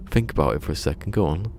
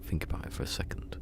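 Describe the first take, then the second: First: Quick, nudging inner voice; brisk inner voice. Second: Soft whisper of the phrase. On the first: Retold or imitated. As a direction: hurry yourself to think it through. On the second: Shown as a demonstration. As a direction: breathe it to yourself. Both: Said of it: "and I was going".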